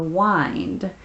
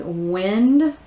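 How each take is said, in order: First: Second "wind" with long i, rhyming with "find"; slow, clear long-vowel second "wind"; verb pronunciation. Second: First "wind" with short i, as in "pinned"; slow, clear short-vowel first "wind"; noun pronunciation. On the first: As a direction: say the second "wind" as in winding a clock. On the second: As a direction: say the first "wind" like moving air. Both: Shown as a demonstration. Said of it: "It can be used as".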